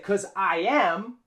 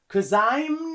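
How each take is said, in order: First: I and am are said as two words. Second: I and am are joined into I'm. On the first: The speaker calls it wrong. "we don't say" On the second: The speaker calls it right. "we use the contraction"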